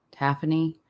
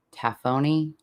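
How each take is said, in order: First: Taphony said again as /tʰæfəni/, middle vowel reduced to a schwa; second try at "taphony", higher, with a short middle syllable; corrected pronunciation. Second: "taphony" tried out carefully, with o in the second syllable; unsure pronunciation. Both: Shown as a demonstration. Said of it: "I'm gonna mess the word up".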